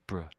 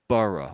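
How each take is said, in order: First: The ending is reduced to one short syllable. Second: The ending is said as two full syllables. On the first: The speaker calls it right. "I'm saying Middlesbrough, bruh" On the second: The speaker calls it wrong. "I'm not really saying borough on the end"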